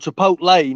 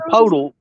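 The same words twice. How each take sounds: First: The word gets its usual standard pronunciation. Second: The word is sounded out letter by letter. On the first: This is what the place is actually called. "I know it's called Chipotle now" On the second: This is how the speaker personally says it. "if it looks like it, I'll say it"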